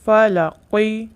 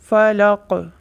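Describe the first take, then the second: First: The word ends on a short vowel after q. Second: The word ends on q with an echoing bounce.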